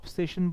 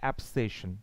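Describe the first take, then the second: First: The first vowel sounds like 'o'. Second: The first vowel sounds like 'a' in cat. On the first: The speaker calls it wrong. "দেখো এটাকে আমরা অবসেশন বলি" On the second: The speaker calls it right. "But আসল উচ্চারণ অ্যাবসেশন"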